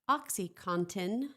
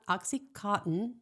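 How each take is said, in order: First: The ending sounds like 'contin'. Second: The ending sounds like 'cotton'. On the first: The speaker calls it right. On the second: The speaker calls it wrong.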